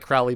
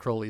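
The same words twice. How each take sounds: First: The first vowel sounds like the one in 'cow'. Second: The first vowel sounds like the one in 'crow'. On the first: "I like Crowley better" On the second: "rhymes with holy"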